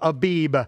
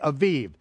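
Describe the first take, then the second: First: The middle consonant is a b sound. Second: The middle consonant is a v sound. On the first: "in your King James Version, it'll say the month of Abib"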